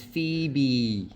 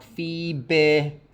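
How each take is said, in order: First: "Phoebe" with a long "ee" ending; correct final vowel. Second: "Phoebe" slowly, ending in a short lax "beh"; wrong final vowel. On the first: Teacher correcting the vowel, long "ee" in "Phoebe". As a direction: finish "Phoebe" on a clear tense "bee". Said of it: "it's Phoebe". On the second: Teacher showing what the vowel is not, lax-ended "Phoebe". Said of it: "It's not Phoebe". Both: Shown as a demonstration.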